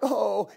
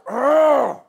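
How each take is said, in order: First: The groan sounds sad and grieving. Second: The groan sounds frustrated and exasperated. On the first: He is mourning a dead friend. The speaker calls it wrong. "It wasn't like" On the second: He is frustrated by the unbelief around him. The speaker calls it right. "he was exasperated. ... it was like"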